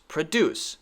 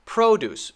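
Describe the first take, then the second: First: Pro-DUCE, reduced first syllable; stress on second syllable. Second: PRO-duce, high first syllable falling away; stress on first syllable. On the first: Teacher contrasts verb with noun, second-syllable stress on pro-DUCE. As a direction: put the weight on DUCE in "produce". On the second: Teacher contrasts noun with verb, first-syllable stress on PRO-duce. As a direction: hit the PRO in "produce". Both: Shown as a demonstration. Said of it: "but the stress is different".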